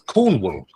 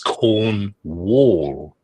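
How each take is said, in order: First: The second syllable sounds like 'wool'. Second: The second syllable sounds like 'wall'. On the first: The speaker calls it right. "But you pronounce it wool" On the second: The speaker calls it wrong. "reads as corn wall, W A L L"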